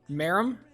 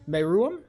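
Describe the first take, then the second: First: The 'oo' vowel is short and light. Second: The 'oo' vowel is drawn out and heavy. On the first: "Can I just say Merum?" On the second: "I'm pronouncing the ooh a little bit too hard"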